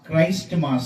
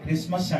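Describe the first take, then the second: First: It is said as two words, Christ and mass. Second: It is said as krismas, without the 't'. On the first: This is the form the speaker recommends. The speaker calls it right. "క్రైస్ట్ మాస్ అనాలి" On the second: This is the common everyday form. The speaker calls it wrong. "మనం చాలాసార్లు క్రిస్మస్ అంటాం"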